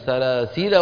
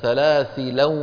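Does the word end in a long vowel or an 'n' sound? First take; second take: long vowel; n sound. First: The word ends on a plain long vowel. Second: The word ends with an added n sound. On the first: "بعضهم لا ينونها" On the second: "بعضهم ينونها"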